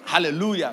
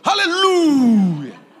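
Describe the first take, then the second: First: It is said flatly with low energy. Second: It is said loudly with high energy.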